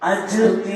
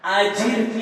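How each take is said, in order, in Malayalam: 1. j ശബ്ദത്തിന് ശേഷം സ്വരമില്ല. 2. j ശബ്ദത്തിന് ശേഷം i സ്വരമുണ്ട്. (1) "തെറ്റു വരുന്നത് അജിർനി എന്ന് പറയരുത്, അജീർ എന്നുള്ള സുക്കൂന് പറയരുത്" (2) "അജിർനി എന്ന് പറയണം"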